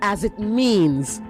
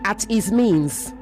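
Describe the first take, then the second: First: The first words sound like 'as it'. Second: The first words sound like 'at his'. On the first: The speaker calls it right. "as opposed to" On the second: The speaker calls it wrong. "You were in a rush to finish. And so you said at his means"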